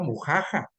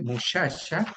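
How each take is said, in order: First: The middle consonants are harsh 'j' sounds. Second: The middle consonants are 'ch' sounds. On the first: "esta X fonéticamente tiene un valor como de J del español" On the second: "en vez de muchacha"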